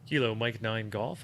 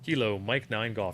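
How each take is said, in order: First: It is said in an ordinary speaking voice. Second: It is said in a put-on announcer voice. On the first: "I wasn't using my radio voice" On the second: "using my radio voice"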